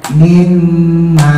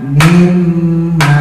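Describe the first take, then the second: No difference in how they are said.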